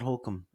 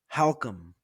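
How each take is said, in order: First: The first syllable sounds like 'hole'. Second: The first syllable sounds like 'how'. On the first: The speaker calls it wrong. "And people say Holcomb" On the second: The speaker calls it right. "as in like if you were asking the question, how come"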